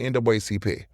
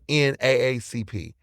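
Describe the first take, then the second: First: The acronym is said the original way. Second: The acronym is said the newer way. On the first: This is how the community grew up saying it. "if I'm around my people, I'm gonna say" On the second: This is how people outside the community say it. "You non-black, y'all say"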